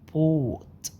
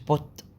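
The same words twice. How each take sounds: First: The vowel is said long. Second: The vowel is said short. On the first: The speaker calls it right. "لأ بوت" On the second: The speaker calls it wrong. "مش بوت"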